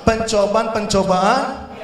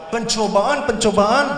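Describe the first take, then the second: The two takes are said the same way.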